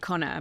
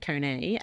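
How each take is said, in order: First: The name is said the speaker's own, non-American way. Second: The name is said the way Americans say it. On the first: "I say Connor" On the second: "if you're American, they say Kone"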